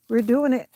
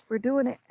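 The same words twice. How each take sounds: First: Cheering herself on. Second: Said in the usual way. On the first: Real, not acted.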